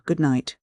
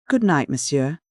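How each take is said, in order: First: Said in the usual way. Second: Demure maid's good night with a lift; a hint of a demure maid. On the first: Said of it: "Oh, about nine o'clock". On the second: A narrator's reading. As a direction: say it modestly, eyes lowered. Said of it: "said the maid demurely".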